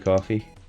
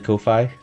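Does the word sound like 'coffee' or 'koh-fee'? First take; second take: coffee; koh-fee. First: The first syllable sounds like 'kaw'. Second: The first syllable sounds like 'koh'. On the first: The speaker calls it wrong. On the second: The speaker calls it right.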